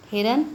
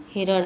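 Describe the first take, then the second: First: हिरन ending in dental n; consonant contrast. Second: हिरण ending in retroflex n; consonant contrast. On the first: Teacher contrasting consonants, plain-n हिरन. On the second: Teacher contrasting consonants, retroflex हिरण. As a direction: curl the tongue back for the end of हिरण. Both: Shown as a demonstration. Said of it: "ड़ और न में".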